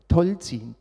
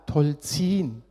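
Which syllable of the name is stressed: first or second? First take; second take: first; second. First: The stress is on the first syllable. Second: The stress is on the second syllable. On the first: The speaker calls it wrong. "Alle Leute sagen Tolzin, ... dass der Name falsch betont wird" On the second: The speaker calls it right. "man betont die zweite Silbe"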